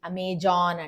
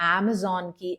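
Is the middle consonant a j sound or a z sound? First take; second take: j sound; z sound. First: The middle consonant is a j sound. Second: The middle consonant is a z sound. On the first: The speaker calls it wrong. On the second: The speaker calls it right.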